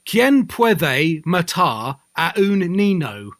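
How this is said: It is said with a heavy English accent. "He would say, ... doesn't give a fuck about pronunciation"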